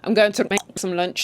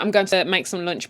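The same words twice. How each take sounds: First: Clicks replace some consonants, Zulu style. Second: It is said with ordinary consonants.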